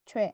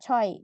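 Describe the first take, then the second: First: The vowel glides from w into e. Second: The vowel glides from o into i. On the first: The speaker calls it right. "ini dibacanya adalah cue" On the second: The speaker calls it wrong. "jadi bukan coy gitu ya"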